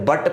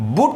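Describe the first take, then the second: First: The vowel is an open 'uh' sound. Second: The vowel is a rounded 'oo' sound. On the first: The speaker calls it right. "इससे बट पढ़ेंगे" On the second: The speaker calls it wrong. "बुट ना पढ़ करके"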